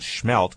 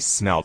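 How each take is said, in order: First: The word begins with a sh sound. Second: The word begins with a plain s sound. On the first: This is how the locals say it. The speaker calls it right. "we were corrected on that by a local. It's called schmelt" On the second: This is the usual outsider's way of saying it. The speaker calls it wrong. "which you and I might say smelt"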